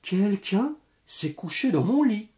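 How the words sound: It is said in a medium voice.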